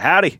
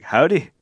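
First: "Howdy" pitched high and loud, cheery greeting; American howdy. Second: "Howdy" high, in a lightly put-on foreign accent; imitated foreign accent. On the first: Retold or imitated. American hailing passers-by abroad, high loud "Howdy". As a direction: call out a high, punchy "Howdy". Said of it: "David would be like". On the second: Passer-by answering David, lightly accented foreign "Howdy". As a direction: echo "Howdy" with a hint of Scottish or Irish. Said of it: "interesting hearing it from a different accent".

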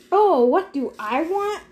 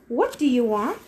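First: Higher, sarcastic echo; mocking echo. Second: Controlled question at usual pitch; trying for calm. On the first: God echoes trapped hero's question, mocking. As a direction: throw the question back in mock surprise. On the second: Trapped hero questions the god, keeping calm. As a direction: keep it measured, lifting at the end. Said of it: "I tried to keep my voice calm". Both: A narrator's reading.

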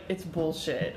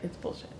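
First: Blunt, firm dismissal; forceful. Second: Much softer, muttered dismissal; quiet. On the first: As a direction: say it flat out, forcefully. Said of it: "she said it pretty forcefully". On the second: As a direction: say it under your breath, backing down. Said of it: "and now she's like". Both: Acted.

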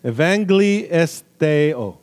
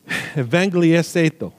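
First: Slow, syllable-by-syllable Greek in a put-on Apache accent. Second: "evangeliseto" run together, last syllables muddled; an unsure first go at the Greek "evangeliseto"; stumbled pronunciation. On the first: Preacher retrying a Greek word, slow mock Apache accent. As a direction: sound it out slowly, imitating an Apache accent. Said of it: "I said it with an Apache accent". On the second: Preacher trying a Greek word for the congregation, stumbling on "evangeliseto". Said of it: "let me see if I can say it again". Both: Shown as a demonstration.

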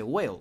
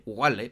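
First: Whale said as English wel, no H; teacher giving the right whale after the wrong one; correct pronunciation. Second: Wale read the way it is spelt, the H sounded out; teacher showing how not to say wale; wrong spelling pronunciation. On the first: Correct English whale, plain teaching tone. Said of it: "se dice whale". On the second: Mock wrong reading, slow. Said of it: "no se dice así". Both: Shown as a demonstration.

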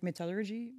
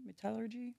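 First: First try at "metallurgy", stress on the first part; unsure pronunciation. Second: "metallurgy" retried higher and softer; second-guessed pronunciation. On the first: Naming the foundry work, unsure pronunciation of "metallurgy". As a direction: say "metallurgy" tentatively as MET-al-ler-jee. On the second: Correcting oneself on the word, softer unsure "metallurgy". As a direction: try "metallurgy" with a soft zh, me-TAL-ler-zhee. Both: Real, not acted. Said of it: "I don't know how to pronounce it".

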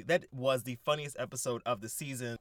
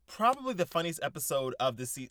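First: Firm stress on "was", leaving no doubt; emphatic correction on WAS. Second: Said in the usual way. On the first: Real, not acted. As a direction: correct yourself by leaning on "was". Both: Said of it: "not probably".

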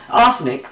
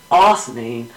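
First: Said in the usual way. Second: "arsenic" with the final k dropped, like "arsenee"; tongue slip. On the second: Real, not acted. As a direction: stumble on "arsenic", losing its last consonant. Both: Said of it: "fell on my own tongue there".

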